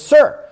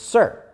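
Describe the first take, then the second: First: It is said very loudly, almost shouted. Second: It is said somewhat louder.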